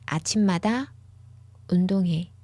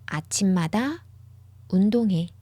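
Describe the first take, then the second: No difference in how they are said.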